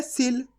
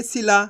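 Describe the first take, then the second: First: सिल ending on the l, with no aa; no final vowel. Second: सिला with the final laa drawn out; सिला as "si-laaa"; stretched ending. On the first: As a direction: close सिल softly on a bare l. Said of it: "आ की मात्रा नहीं होती". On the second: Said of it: "ला को खींच के पढ़ देंगे". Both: Shown as a demonstration.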